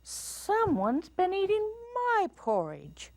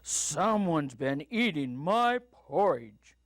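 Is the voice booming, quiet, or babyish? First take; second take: quiet; booming. First: It is said in a quiet voice. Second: It is said in a booming voice.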